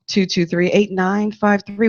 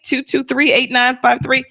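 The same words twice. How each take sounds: First: It is said in a smooth put-on announcer voice. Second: It is said in an ordinary speaking voice.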